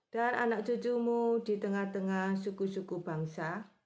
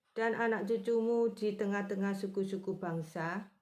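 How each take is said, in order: Both takes have the same delivery.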